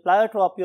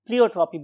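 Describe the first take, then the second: First: Pleiotropy said "PLY-o-tropy". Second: Pleiotropy said "PLEE-o-tropy". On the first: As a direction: say pleiotropy with a first syllable like "ply". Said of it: "pronunciation की बात करें तो बहुत से लोग". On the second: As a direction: say pleiotropy with a first syllable like "plee". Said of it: "बहुत से लोग इसे pleiotropy भी बोलते हैं". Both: Shown as a demonstration.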